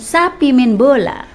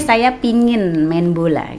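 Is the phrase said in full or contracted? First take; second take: contracted; full. First: The first words are contracted into one word. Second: The phrase is said in full form. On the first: "Tapi dialeknya tidak pingin, sapi main bola" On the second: "dia saya pingin main bola gitu kan"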